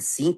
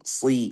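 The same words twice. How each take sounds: First: The s sound is plain and light. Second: The s sound is emphatic and heavy. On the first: The speaker calls it wrong. "bukan si" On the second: The speaker calls it right. "tapi si, sad"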